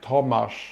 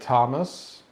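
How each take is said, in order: First: The name is said with a Polish pronunciation. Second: The name is said with an American pronunciation. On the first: "in Poland, it's like ridiculous" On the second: "In in America, I guess it's like"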